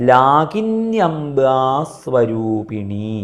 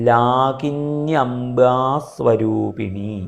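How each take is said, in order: Both takes have the same delivery.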